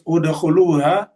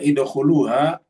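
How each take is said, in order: First: The word begins with a u vowel. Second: The word begins with an i vowel. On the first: The speaker calls it right. "di sini harus di doma" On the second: The speaker calls it wrong. "tidak boleh baca idkhuluha"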